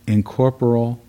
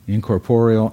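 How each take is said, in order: First: The stress falls on an unexpected syllable. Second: The stress falls on the usual syllable. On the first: The speaker calls it wrong. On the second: The speaker calls it right.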